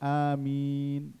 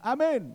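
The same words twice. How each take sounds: First: The first vowel is drawn out long. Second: The first vowel is said short. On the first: The speaker calls it right. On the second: The speaker calls it wrong. "Jangan bilang amin"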